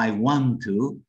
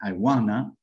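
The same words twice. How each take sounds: First: "I want to" slow, each word separate; full form. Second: "I wanna" run together, reduced; reduced form. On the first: Teacher giving the full phrase before reducing. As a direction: say every word fully. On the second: Teacher showing the reduced native form. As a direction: blend it into wanna. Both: Shown as a demonstration. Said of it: "Reducir quiere decir".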